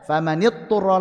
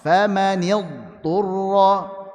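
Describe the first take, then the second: First: The dhad is skipped, going straight to t. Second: The dhad is pronounced clearly before t. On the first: The speaker calls it wrong. "jangan sampai dibaca famanidturra langsung ta" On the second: The speaker calls it right. "Kemudian dhad ketemu ta"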